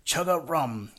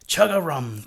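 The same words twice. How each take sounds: First: A second joyful call, higher but less loud; glad cry. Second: A big, joyful shout, higher and louder; loud glad croak. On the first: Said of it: "he cried again". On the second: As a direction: boom out a happy frog call, full voice. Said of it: "the loudest, gladdest chug-a-rum". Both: A narrator's reading.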